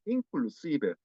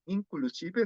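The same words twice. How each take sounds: First: "inclusive" in one flow, "in" joined to "clusive"; linked without pause. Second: "inclusive" broken after "in"; pause between syllables. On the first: Teacher correcting students, "inclusive" run smoothly together. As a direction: let the N slide straight into C in "inclusive". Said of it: "Cuando no hay pausa". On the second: Teacher showing the Korean mistake, "inclusive" split up. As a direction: separate "in" from "clusive", N kept clear. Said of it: "suele dar pausa entre sílabas". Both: Shown as a demonstration.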